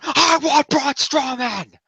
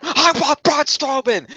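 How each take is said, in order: First: High and very slow, each word spaced out; final demand. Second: High, slowed, insistent mock demand; demanding Sami. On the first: Retold or imitated. Sami's last answer to Foley, very slow and high. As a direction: lean into every word like a vow. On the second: Sami answers Foley's challenge, high and slowed. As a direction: plant your feet and insist.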